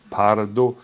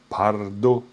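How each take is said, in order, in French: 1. Le mot commence par un son p sourd. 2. Le mot commence par un son p sourd.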